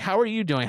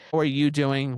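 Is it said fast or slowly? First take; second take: fast; slowly. First: It is said quickly and casually. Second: It is said slowly and deliberately.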